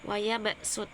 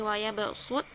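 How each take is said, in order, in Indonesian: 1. Huruf s itu bunyi sin yang biasa. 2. Huruf s itu bunyi sad yang emfatis. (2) "sodnya diganti menjadi sin, dari"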